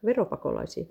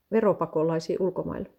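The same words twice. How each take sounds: First: "Veropakolaisia" lower and rising into a question; questioning echo. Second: Said in the usual way. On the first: Acted. Spouse queries the remark about tax refugees, "Veropakolaisia" as a rising question. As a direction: echo "Veropakolaisia" back as a question with a final rise. Echoes the word back questioningly.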